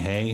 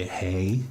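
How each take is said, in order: First: Said in the usual way. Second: "Hey" with the H dropped, French-style; silent H. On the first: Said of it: "Instead of saying". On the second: Shown as a demonstration. Actor shows his French accent trick, "Hey" without its H. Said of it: "don't pronounce the H".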